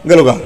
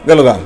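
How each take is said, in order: Both takes have the same delivery.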